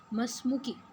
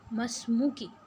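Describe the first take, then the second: No difference in how they are said.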